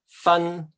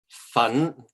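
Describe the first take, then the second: First: The syllable is said in the first tone. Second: The syllable is said in the second tone. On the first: It means to separate. "this means um, to separate" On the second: It means powder. "This means powder"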